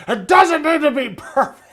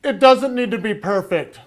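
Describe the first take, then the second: First: Higher, louder hammed-up angry close-up, cracking into a laugh; over-the-top angry-guy impression; mock angry guy. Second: Said in the usual way. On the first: Shown as a demonstration. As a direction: play a fake furious guy in close-up and break up laughing. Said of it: "close-up, like, you know, angry guy". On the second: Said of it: "That's my, uh, close-up".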